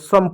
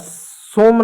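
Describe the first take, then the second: First: The vowel sounds like 'uh'. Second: The vowel sounds like 'oh'. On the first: The speaker calls it right. "सम पढ़ेंगे" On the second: The speaker calls it wrong. "इसको क्या सोम नहीं पढ़ेंगे"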